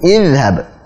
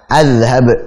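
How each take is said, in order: First: The word begins with an i vowel. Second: The word begins with an a vowel. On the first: The speaker calls it right. "Jadi izhab, bukan udhhab" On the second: The speaker calls it wrong. "bukan juga azhab"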